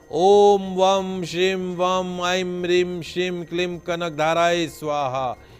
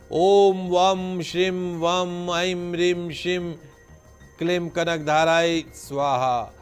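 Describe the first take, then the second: No difference in how they are said.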